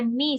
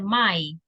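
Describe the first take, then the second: First: The vowel sounds like 'ee'. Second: The vowel sounds like 'eye'. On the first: The speaker calls it wrong. "no se dice me" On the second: The speaker calls it right. "sino que se dice my"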